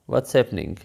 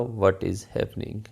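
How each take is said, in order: First: What and is merge into one syllable. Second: What and is are said as separate words. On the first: "व्हाट इज़ को contract करके व्हाट्स" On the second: "English में वैसे तो बनेगा"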